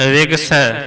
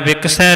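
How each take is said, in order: First: The middle consonant is a g sound. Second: The middle consonant is a k sound. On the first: The speaker calls it right. "गग्गा लग्या होया है" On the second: The speaker calls it wrong. "विकसै नहीं कहना"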